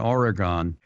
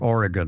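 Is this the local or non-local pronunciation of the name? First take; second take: non-local; local. First: It uses a non-local pronunciation of the name. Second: It uses the local pronunciation of the name.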